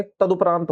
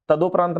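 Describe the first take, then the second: First: तदुपरांत said with "du"; correct u vowel. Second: तदोपरांत said with "do"; wrong o vowel. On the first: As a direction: say तदुपरांत as "ta-du-praant". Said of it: "ऊ की मात्रा होती है". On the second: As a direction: say तदोपरांत as "ta-do-praant". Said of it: "तदोपरांत नहीं". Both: Shown as a demonstration.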